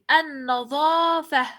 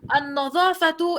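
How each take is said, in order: First: The word ends with an h sound. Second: The word ends with a t sound. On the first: The speaker pauses after the word. The speaker calls it right. "voy a pronunciarla ha, así" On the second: The word runs on into what follows. The speaker calls it wrong. "No voy a decir"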